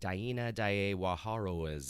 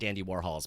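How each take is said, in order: First: The name is said with added foreign-sounding syllables. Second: The name is said with ordinary English sounds.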